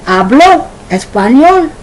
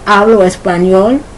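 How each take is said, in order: First: The stress in hablo is on the last syllable. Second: The stress in hablo is on the first syllable. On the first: He spoke Spanish. "the H A B L O with the accent tells you it's the third person" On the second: I speak Spanish. "The H A B L O tells you it's the first person singular present tense"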